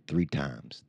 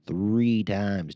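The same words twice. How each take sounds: First: Said in the usual way. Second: "Three" drawn out and louder; stress on Three. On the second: Retold or imitated. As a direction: lean hard on "Three", stretching it. Repeats the count to drive it home.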